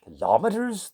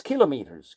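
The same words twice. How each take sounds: First: "Kilometers" stressed on the second syllable, kil-OM-eters; wrong pronunciation. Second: "kilometers" as KEE-lo-mee-ters, both parts intact; correct pronunciation. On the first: Musician correcting listeners' metric terms, "Kilometers" wrongly stressed as kil-OM-eters. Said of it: "Don't use that word". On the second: Teacher correcting a misused word, "kilometers" said as KILO-meters. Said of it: "Kilo for thousand, meters for meters". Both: Shown as a demonstration.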